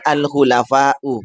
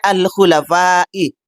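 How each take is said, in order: First: The word ends with a u vowel. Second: The word ends with an i vowel. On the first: The speaker calls it wrong. "bukan al-khulafa'u" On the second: The speaker calls it right. "Maka seharusnya al-khulafa'i"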